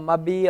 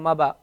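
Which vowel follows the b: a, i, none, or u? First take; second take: i; a. First: An i vowel follows the b. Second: An a vowel follows the b. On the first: "You can't say" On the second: "You can't say"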